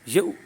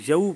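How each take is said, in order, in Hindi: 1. स्वर एकदम झटके के साथ बोला जाता है। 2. स्वर बिना झटके के नरमी से सरकता है। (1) "कोई झटका दे देता है यऊ इस तरह करके तो उसने भी गलती की है" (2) "यऊ पढ़ेंगे"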